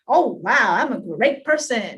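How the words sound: It sounds shallow and showy.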